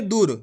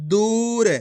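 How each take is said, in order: First: दूर with a short clipped u like दुर; wrong short u. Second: दूर with the ऊ held long; correct long u. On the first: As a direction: say दूर too quickly as a mistake. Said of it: "ऐसे नहीं पढ़ेंगे". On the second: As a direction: stretch the vowel of दूर. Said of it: "कैसे पढ़ेंगे". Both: Shown as a demonstration.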